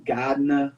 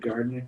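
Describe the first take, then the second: First: Gardner r-less, "GAHD-nah", Massachusetts style; Massachusetts accent. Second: Said in the usual way. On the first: Shown as a demonstration. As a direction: drop both r's in Gardner like a Massachusetts local. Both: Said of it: "instead of Gardner".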